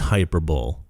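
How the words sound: It is said the way Australians supposedly say it.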